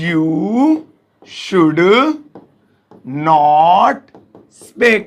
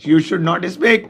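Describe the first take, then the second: First: Slow word by word. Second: Said in the usual way. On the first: Shown as a demonstration. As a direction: dictate slowly word by word. (एक-एक शब्द धीरे-धीरे) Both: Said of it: "तो देखिए कैसे बोलेंगे".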